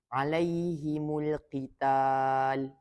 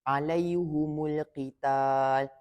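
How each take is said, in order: First: The h takes i and the m takes u. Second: Both the h and the m take a u. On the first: "meletakkan baris kasrah, iaitu bawah pada huruf ha, dan baris dhammah" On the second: "baris depan di huruf ha dan mim"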